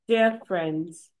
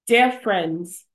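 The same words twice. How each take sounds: First: It is read quietly. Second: It is read loudly.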